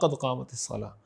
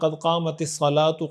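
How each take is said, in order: First: The last word ends in a pausal h sound. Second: The last word ends with a short u vowel. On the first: The speaker calls it right. "पढ़ने का तरीक़ा ये है" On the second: The speaker calls it wrong. "ये भी ठीक तरीक़ा नहीं है"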